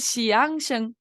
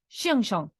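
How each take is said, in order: First: The first syllable's vowel sounds like 'ia'. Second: The first syllable's vowel sounds like 'ie'. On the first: "vamos a leer Xianxiang" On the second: "pero se va a decir Xianxiang"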